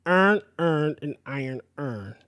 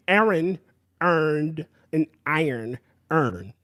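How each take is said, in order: First: Baltimore accent, vowels running together; true Baltimore accent. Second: Slow, careful "Aaron earned an iron earn" with each word kept apart; careful pronunciation. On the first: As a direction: say it the true Baltimore way, each word slurred into earn. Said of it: "if you're saying it with true Baltimore". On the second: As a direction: spell out every word slowly. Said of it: "but I can say". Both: Shown as a demonstration.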